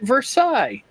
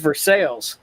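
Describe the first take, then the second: First: It is said with a fancy, French-like pronunciation. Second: It is said with a plain, unfancy pronunciation. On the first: An outsider's pronunciation. The speaker calls it wrong. "me being not from there, I called it Versailles" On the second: The local pronunciation. The speaker calls it right. "No, no, we're not fancy. This is Versailles"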